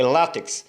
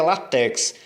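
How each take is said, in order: First: "látex" as LÁ-tex; "látex" with strong lá, weak tex; corrected stress. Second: "látex" wrongly stressed at the end, la-TÉX; "látex" said with weak la, strong TÉX; common mispronunciation. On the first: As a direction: hit the first syllable of "látex". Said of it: "a sílaba mais forte é o lá". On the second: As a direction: push the stress onto tex in "látex". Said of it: "Muita gente pronuncia". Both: Shown as a demonstration.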